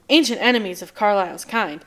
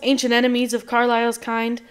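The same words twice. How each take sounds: First: The line is read in a normal tone. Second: The line is read in an odd tone.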